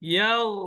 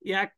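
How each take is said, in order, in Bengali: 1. এটি শেষ হয় মুখের ভেতরে ধরে রাখা একটি নরম gh-তে। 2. এটি শেষ হয় একটি শক্ত, হঠাৎ থেমে যাওয়া k-এর মতো ধ্বনিতে। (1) "গালের মধ্যে রেখে দিতে হবে" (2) "তাহলে হবে না"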